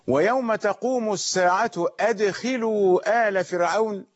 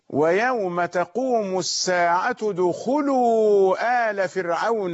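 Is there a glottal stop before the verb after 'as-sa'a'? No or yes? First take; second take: yes; no. First: A glottal stop starts the verb after as-sa'a. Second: The verb joins as-sa'a with no glottal stop. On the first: Guards are ordered to bring the family of Pharaoh into the punishment. "هذا إذا قرأناها بالقطع بهمزة القطع" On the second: The family of Pharaoh are themselves called to enter the punishment. "لكن قراءة الوصل"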